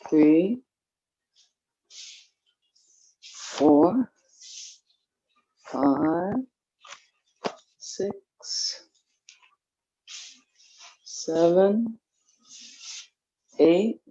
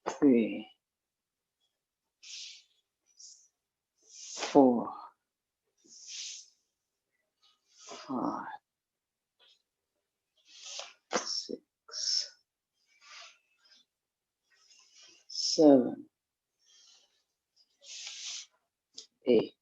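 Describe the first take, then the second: First: The numbers are counted at a faster pace. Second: The numbers are counted at a slower pace.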